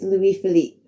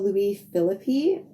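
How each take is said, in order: First: Philippe is said in the French way. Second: Philippe is said like the English actor's surname. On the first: The speaker calls it right. "It's Louis Philippe" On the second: The speaker calls it wrong. "my pronunciation was completely wrong... I just watched a movie with Ryan Philippe"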